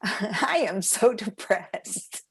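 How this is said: It is said smiling, with laughter.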